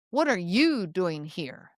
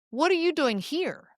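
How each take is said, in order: First: Slow, low judgmental challenge with weight on "you"; grumpy, irritated. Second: Higher-pitched happy surprise; delighted greeting, grinning ear to ear; surprised, thrilled. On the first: Store clerk who thinks you're in the wrong place, grumpy. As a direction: drip irritation and judgment, slowly. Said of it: "that's a grumpy store clerk". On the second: Best friend spotting you at a coffee shop, thrilled. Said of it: "grinning ear to ear, surprised and thrilled". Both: Shown as a demonstration.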